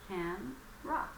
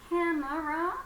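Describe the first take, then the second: First: The word is said with two syllables. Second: The word is said with three syllables. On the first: This is the modern way people say it. "There are two syllables in this word" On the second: This is the older way people said it. "camera is the old style pronunciation"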